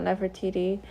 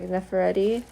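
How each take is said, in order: First: The third syllable is said as 'ti'. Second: The third syllable is said as 're'. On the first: The speaker calls it wrong. "not Nefertiti" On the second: The speaker calls it right. "I mean Nefer Nefereti"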